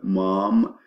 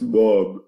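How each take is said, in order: First: The m sounds are clearly nasal and clear. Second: The m sounds are blocked, sounding like b. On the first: Someone is calling their mother. The speaker calls it right. "Now you clearly understand" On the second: Not enough air goes through the nose. The speaker calls it wrong. "when you have a cold, it might come like this"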